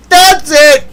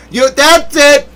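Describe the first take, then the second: First: A much higher, louder "That's it"; mock furious yell. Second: A higher "that's it", the mock anger starting. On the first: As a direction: blow up in mock fury. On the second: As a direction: start to lose it, in jest. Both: Hammed-up outburst of mock anger.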